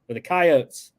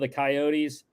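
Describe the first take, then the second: First: Coyotes is said the local South Dakota way. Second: Coyotes is said the common, general way.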